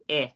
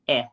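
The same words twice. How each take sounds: First: The short E has a New Zealand quality. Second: The short E has an American quality. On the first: "Is more like the Kiwi one" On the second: "That's the American one"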